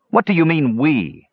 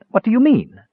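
First: Mildly growled, higher-pitched challenge; indignant pushback, lightly growling. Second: High-pitched nervous question. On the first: Tannen rejects the dwarf's "we," mildly growling. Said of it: "Tannen growled". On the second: Palin fears the dwarf's news, asking nervously. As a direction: ask it anxiously, voice lifted high. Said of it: "Palin asked nervously". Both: A narrator's reading.

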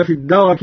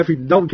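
First: الدرك said "ad-darak", with an a after the ra; two-vowel "darak" in الدرك; fatha on ra. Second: Said in the usual way. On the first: Shown as a demonstration. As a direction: open the ra of الدرك with a short "a". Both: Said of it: "بفتح الراء".

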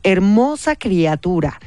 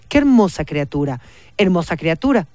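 First: Slow, drawn-out croak; croaking witch voice. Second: Witch voice. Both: Acted. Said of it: "graznó Matilde con voz de bruja".

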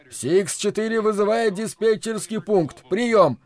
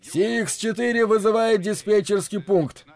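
First: High pilot voice calling the tower; pilot radio call. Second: High-pitched pilot calling the tower; pilot radio call. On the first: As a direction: repeat the call over the radio. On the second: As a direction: call in over the radio, clipped and urgent. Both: Acted. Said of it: "а вот и голос Хопа".

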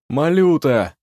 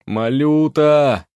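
First: Loud calling name. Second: Loud, drawn-out slow call. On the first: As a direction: call into the burnt house. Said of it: "позвал". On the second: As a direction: call again into the ruins, louder. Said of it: "снова позвал аптекарь". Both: A narrator's reading.

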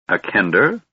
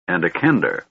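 First: "A kender?" asked with a touch of alarm; mild alarm. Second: Said in the usual way. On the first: A narrator's reading. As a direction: repeat "kender" as a worried question. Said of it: "Gunthar repeated in some alarm". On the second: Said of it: "Gunthar repeated".

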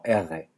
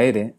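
First: R, una erre gutural como en yiddish. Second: R, la erre vibrante. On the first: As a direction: di la R desde la garganta. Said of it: "sino como R". (erre uvular) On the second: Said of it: "no como R". (erre alveolar) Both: Shown as a demonstration.

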